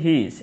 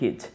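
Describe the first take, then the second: First: It is said as two separate words. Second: It is said as one contracted word. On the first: "এটা কিন্তু হি ইজ" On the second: "উচ্চারণ কিন্তু হিজ বলতে পারি"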